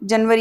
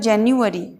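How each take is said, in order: First: The word is said with a Hindi pronunciation. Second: The word is said with an English pronunciation. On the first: "Hindi में इसे कहते हैं हम" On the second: "English में इसका उच्चारण होगा"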